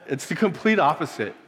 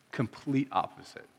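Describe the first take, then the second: First: Said in the usual way. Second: Much softer, voice close to breaking; choked up, barely holding it together; holding back tears. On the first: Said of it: "I'm not gonna cry". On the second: Real, not acted. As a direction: fight the tears on these words. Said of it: "I told myself I wasn't gonna cry".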